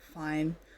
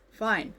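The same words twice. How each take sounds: First: It sounds weary, detached and bitter. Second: It sounds sincere and genuine.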